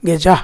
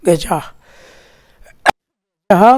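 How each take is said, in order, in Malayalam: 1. വാക്ക് മൃദുവായ ഒരു ശ്വാസത്തിൽ അവസാനിക്കുന്നു, അക്ഷരമില്ല. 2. വാക്ക് പൂർണ്ണമായ ഒരു അധിക 'ha' അക്ഷരത്തോടെ അവസാനിക്കുന്നു. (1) "ഗജ എന്ന് പറഞ്ഞ് കാറ്റ് പോകണം" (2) "ഗജ ഹ എന്ന് പറഞ്ഞ അർത്ഥം മാറി"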